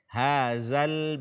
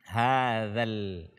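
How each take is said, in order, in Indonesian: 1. Konsonan tengahnya adalah bunyi 'z'. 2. Konsonan tengahnya adalah 'th' bersuara. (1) "ini zai" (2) "ujung lidah disentuh oleh ujung gigi seri atas kita"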